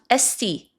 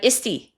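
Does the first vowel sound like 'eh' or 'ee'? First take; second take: eh; ee. First: The first vowel sounds like 'eh'. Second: The first vowel sounds like 'ee'. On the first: The speaker calls it right. "it's pronounced esti" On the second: The speaker calls it wrong. "not isti"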